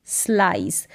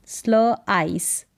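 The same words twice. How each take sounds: First: Said in the usual way. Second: Slow स्ल आइस in two parts; sounded out. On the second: Shown as a demonstration. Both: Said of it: "एस एल को स्ल".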